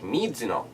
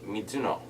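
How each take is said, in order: First: The emphasis falls on an unexpected syllable. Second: The emphasis falls where it naturally belongs. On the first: The speaker calls it wrong. "it feels like it's the wrong emphasis on the wrong syllable" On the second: The speaker calls it right. "it's Ami Mizuno"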